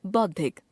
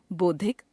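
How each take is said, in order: First: Said in the usual way. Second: बौद्धिक as बोद्धिक, closed o, rising; wrong pronunciation. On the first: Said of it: "शुद्ध". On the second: Shown as a demonstration. Teacher showing a common error, बौद्धिक with ओ sound. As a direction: narrow बौ to बो in बौद्धिक. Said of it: "अशुद्ध".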